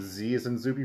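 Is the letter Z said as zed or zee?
zee. The letter is said the American way, zee.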